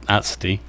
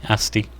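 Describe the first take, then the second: Both takes have the same delivery.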